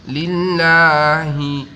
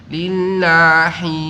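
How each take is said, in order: Both takes have the same delivery.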